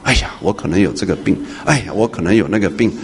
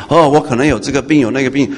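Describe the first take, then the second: First: Soft, low imitation of a worrier fussing over imagined illness; a quiet fretting sigh before each worry; fretful worrier. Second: A sudden mock-alarmed "哦" at ordinary volume, rising; imitating a churchgoer jolted by a new worry; alarmed worrier. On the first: Preacher mimicking a churchgoer fretting over imagined illness, in a soft fretful voice. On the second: Preacher mimicking a churchgoer suddenly alarmed by another imagined illness, mock-alarmed. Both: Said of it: "你不要在那边胡思乱想".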